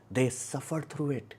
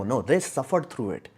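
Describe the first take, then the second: First: "They suffered through it" slowed and softer; slower, softer emphatic repeat. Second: Said in the usual way. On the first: Real, not acted. Repeating to viewers that they truly suffered, slow and soft. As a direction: let it land, slow and quiet.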